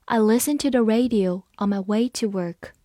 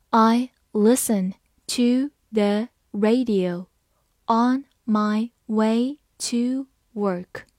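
First: Said in the usual way. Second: Slow, word by word; slow reading. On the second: Shown as a demonstration. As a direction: read it slowly once for learners. (慢读一遍) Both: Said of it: "好，慢读一遍".

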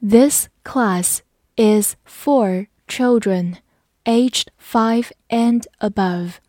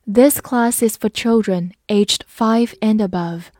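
First: Word by word for repeating; slow model sentence with evenly spaced words; slow read-along. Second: Said in the usual way. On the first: Shown as a demonstration. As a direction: lead learners through it slowly. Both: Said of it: "跟我慢读一遍".

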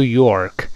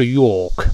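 First: "York" with a hooked-back r. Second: "York" as "yawk", no r; 不卷舌. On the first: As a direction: curl the tongue on "York". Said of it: "舌头往回一勾就好了". (美式 York，舌头往回勾) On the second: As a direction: keep the tongue uncurled on "York". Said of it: "没有卷舌". (英式 York，不卷舌) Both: Shown as a demonstration.

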